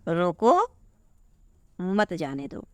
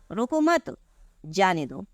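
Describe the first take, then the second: First: There is a pause right after 'roko'. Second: There is a pause right after 'mat'. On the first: Stop him, do not let him go. "रोको के just बाद आपका comma लग गया" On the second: Do not stop him, let him go. "अब यहाँ पर comma लग गया है"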